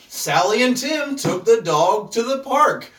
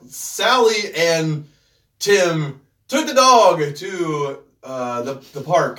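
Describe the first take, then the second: First: It is read smoothly without pauses. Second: It is read haltingly with pauses and fillers.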